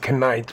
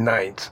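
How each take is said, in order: First: The initial K sound is pronounced. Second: The initial K sound is silent. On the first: The speaker calls it wrong. "And we don't call them Knights" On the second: The speaker calls it right. "We call them Knights"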